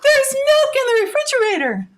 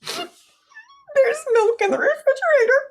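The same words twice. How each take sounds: First: It is said in an excited tone. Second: It is said in a scared tone.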